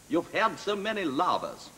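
It is said in a put-on Russian accent. "he had to do a Russian accent. ... And he went"

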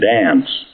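The vowel is short, American style.

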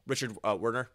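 The name is said with an American accent. "for American accent"

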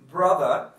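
The final r is dropped. "like the British saying brother"

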